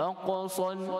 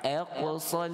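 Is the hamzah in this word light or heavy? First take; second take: heavy; light. First: The opening hamzah is heavy with rounded lips. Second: The opening hamzah is light and unrounded. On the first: The speaker calls it wrong. "itu kita dah muncung, ha, ataupun dah tebal" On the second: The speaker calls it right. "kita nak fasih lagi dengan hamzah fathah aqsal"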